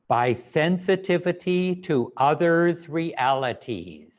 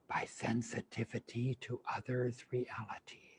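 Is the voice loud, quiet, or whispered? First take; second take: loud; whispered. First: It is said loudly with strong energy. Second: It is whispered without full voice. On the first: "With lots of energy, in a loud voice, with conviction" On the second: "Now whispering only"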